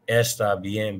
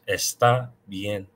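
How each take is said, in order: First: The stress falls on the first syllable of está. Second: The stress falls on the last syllable of está. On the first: The speaker calls it wrong. "I hear a lot of non-native speakers say está, está bien, but that's not right" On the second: The speaker calls it right. "because that's where the accent is"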